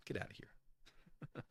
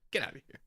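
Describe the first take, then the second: First: Slow hushed whisper; half-joking whispered dismissal. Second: Louder and higher through a laugh; real amused disbelief; laughing exclamation. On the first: Pretend. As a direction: breathe it out under your breath. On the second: Real, not acted. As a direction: burst out laughing at it.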